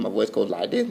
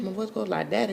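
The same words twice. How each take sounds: First: Said in the usual way. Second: Voice going up. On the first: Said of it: "how I talk like that". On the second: Shown as a demonstration. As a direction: voice hopping up high and softer.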